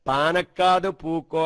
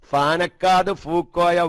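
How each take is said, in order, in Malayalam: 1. ഈ വാക്കുകൾ p ശബ്ദത്തിലാണ് തുടങ്ങുന്നത്. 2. ഈ വാക്കുകൾ f ശബ്ദത്തിലാണ് തുടങ്ങുന്നത്. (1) "വാസ്തവത്തിൽ എങ്ങനെ?" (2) "അറബി മലയാളത്തില് പാ എഴുതൂല, ഫാനാണ് എഴുതുക"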